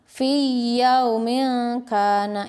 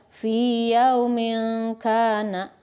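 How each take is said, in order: First: The i of fi merges into a doubled y. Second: The long i of fi is held before yaumin. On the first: The speaker calls it wrong. "yang salah yaitu diidghamkan" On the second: The speaker calls it right. "Dimatobi'ikan saja"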